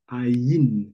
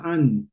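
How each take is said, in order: First: It is said with an audible 'y' glide. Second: It is said without a 'y' glide, like 'an'. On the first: The speaker calls it right. "dis aïn. Il faut entendre le yud là-bas" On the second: The speaker calls it wrong. "ne dis pas an"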